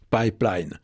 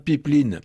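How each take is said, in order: First: The word is said with an English pronunciation. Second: The word is said with a French pronunciation. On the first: The word keeps its foreign origin. "il a gardé des traces de son origine, ne serait-ce que dans sa prononciation" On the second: The word is adapted to the local language. "on peut franciser, hein. On peut tout simplement prononcer pipeline ... avec sa terminaison en in"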